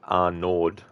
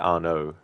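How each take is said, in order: First: The final D sound is pronounced at the end. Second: The final D sound is left silent at the end. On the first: The speaker calls it wrong. "some might try to pronounce it Arnaud" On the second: The speaker calls it right. "the end of the word is like silent"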